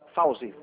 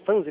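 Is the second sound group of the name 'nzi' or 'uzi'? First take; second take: uzi; nzi. First: The name is said with a u before z. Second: The name is said with an n before z. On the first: The speaker calls it right. "É Fauzi" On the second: The speaker calls it wrong. "tô falando certo a pronúncia?"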